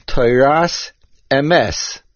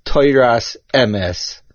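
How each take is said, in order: First: "Toras emes" slowly, with "emes" stressed e-MES; correct accentuation. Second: "Toras emes" slowly, with "emes" stressed E-mes; mistaken accentuation. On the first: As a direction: land on the last syllable of "emes" in "Toras emes". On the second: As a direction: move the stress to the first syllable of "emes" in "Toras emes". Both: Shown as a demonstration. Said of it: "not Toras emes".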